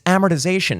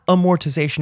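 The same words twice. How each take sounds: First: Amortization as AM-er-tih-ZAY-shun; first-syllable stress. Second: Amortization as uh-MOR-tih-ZAY-shun; wrong pronunciation. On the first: Podcaster correcting own mistake, giving the proper AM-ertization for amortization. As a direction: hit the AM of amortization, short middle syllables. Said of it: "emphasis be on the first syllable". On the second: Podcaster correcting own mistake, showing the wrong uh-MOR-tization for amortization. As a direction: put the first stress of amortization on MOR. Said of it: "proceeded to pronounce it wrong". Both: Shown as a demonstration.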